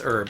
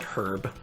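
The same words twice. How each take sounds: First: The word is said the non-European way. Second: The word is said the European way. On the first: The speaker calls it right. "That's herb" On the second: The speaker calls it wrong. "I'm sorry for pronouncing that the European way"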